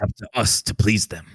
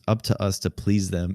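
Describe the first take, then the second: First: It is read in a put-on character voice. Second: It is read in his ordinary natural voice.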